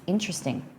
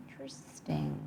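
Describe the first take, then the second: First: Said in the usual way. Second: Interesting breathed as a soft fading whisper. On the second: Real, not acted. Streamer muses on chat's veggie dip in a whisper. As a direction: hush Interesting almost to nothing, falling off at the end. Musing again, hushed.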